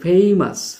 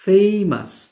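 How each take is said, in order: Both takes have the same delivery.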